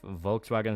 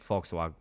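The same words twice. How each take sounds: First: It begins with a V sound. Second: It begins with an F sound. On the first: The speaker calls it wrong. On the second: The speaker calls it right.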